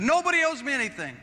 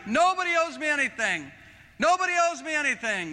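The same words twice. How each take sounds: First: High, full-voiced declaration; shout. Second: High, full-voiced shout. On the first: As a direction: cry it out in triumph. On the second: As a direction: proclaim it at the top of your voice. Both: Real, not acted. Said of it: "I started shouting it".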